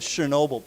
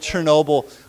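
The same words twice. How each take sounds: First: The word begins with an sh sound. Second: The word begins with a ch sound. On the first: This is how it is commonly heard. "I've always heard it said Chernobyl" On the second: This is how native speakers might say it. "Maybe the Russians say it Chernobyl"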